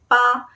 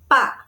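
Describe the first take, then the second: First: It is said with a high, level first tone. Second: It is said with a light, unstressed neutral tone. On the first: It is a full syllable with real meaning. "it regains its original first tone" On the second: It is a soft grammatical particle. "a spoken particle used at the end of a sentence"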